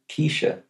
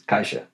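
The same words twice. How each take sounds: First: The first vowel sounds like 'key'. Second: The first vowel sounds like 'eye'. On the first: The name sounds like the word quiche. The speaker calls it right. "as in the quiche" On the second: This is a German-style reading of the spelling. The speaker calls it wrong. "written, it's in Germanic language, is Keisha"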